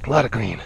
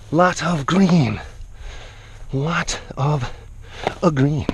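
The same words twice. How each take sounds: First: Said in the usual way. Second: Slow, stretched words; lingering, drawn-out delivery. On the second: Real, not acted. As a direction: savor each word at half speed. Repeats phrase, drawing it out.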